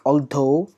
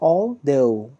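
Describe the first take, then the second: First: The th sound is pushed out hard. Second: The th sound is said lightly and softly. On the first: The speaker calls it wrong. "they stress this word a lot, like" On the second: The speaker calls it right. "Little slight stress is there, but not that much hard stress"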